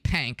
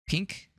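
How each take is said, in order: First: The vowel is a drawled, a-like twang sound. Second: The vowel is a short, plain i sound. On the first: "That's like a southern twang" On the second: "how do you pronounce it?"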